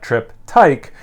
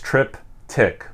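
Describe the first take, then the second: First: The second syllable rhymes with bike. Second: The second syllable rhymes with tick. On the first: The speaker calls it wrong. "not trip-tyke, uh, like I want to say" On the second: The speaker calls it right. "like tick-tock"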